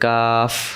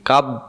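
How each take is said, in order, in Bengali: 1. শেষ ব্যঞ্জনটি বাতাস বেরিয়ে যাওয়ার মধ্য দিয়ে শেষ হয়। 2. শেষ ব্যঞ্জনটি একটি বন্ধ স্পর্শে শেষ হয়। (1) "শেষে বাতাস বেরোবে" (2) "এমন যেন না হয়"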